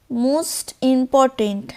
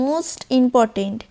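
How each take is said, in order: First: Most important drawn out very slowly, weight on most; stress on most. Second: Most important slow with most pushed; stress on most. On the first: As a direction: lean hard on most, slowly. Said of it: "এটা most important". (most শব্দে জোর দিয়ে ধীরে) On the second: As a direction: press most again, slowly. (most শব্দে জোর দিয়ে, ধীরে) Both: Shown as a demonstration.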